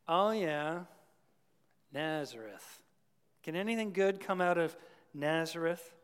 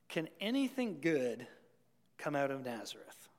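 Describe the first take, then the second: First: Dismissive, eye-rolling sneer at Nazareth; eye-roll scorn. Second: Said in the usual way. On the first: Retold or imitated. Preacher mocking Nathanael's dismissive eye roll. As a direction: roll your eyes at "Nazareth". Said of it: "the proverbial eye roll".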